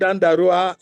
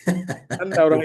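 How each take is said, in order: First: The name ends with the sounds 'arua'. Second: The name ends with the sounds 'aura'. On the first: The speaker calls it wrong. "It is not Dandarua as the East Africans would say" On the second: The speaker calls it right.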